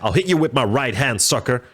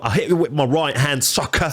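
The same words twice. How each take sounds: First: It is said in a plain accent. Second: It imitates the rapper's accent.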